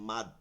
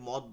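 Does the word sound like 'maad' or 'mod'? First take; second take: maad; mod. First: The vowel is an open 'aa' sound. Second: The vowel is a short 'o' sound. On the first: The speaker calls it right. "বলবো কি মাদ" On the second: The speaker calls it wrong. "অনেকে মদ বলে, মদ বলবো না"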